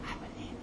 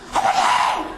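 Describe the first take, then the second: First: It is said quietly and gently. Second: It is said loudly, almost shouted.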